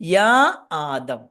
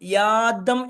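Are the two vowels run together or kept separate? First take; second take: separate; run together. First: The two vowels are kept as separate syllables. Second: The two vowels merge into one syllable. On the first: The speaker calls it right. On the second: The speaker calls it wrong.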